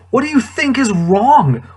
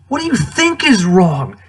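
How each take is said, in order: First: High, loud, hitting you; mock-outraged disbelief at a silly question; incredulous. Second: Exasperated disbelief at a silly question; incredulous. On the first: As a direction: stress on you in What do you think is wrong, voice pitched up high and louder. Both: Real, not acted. Exasperated at Padme's line.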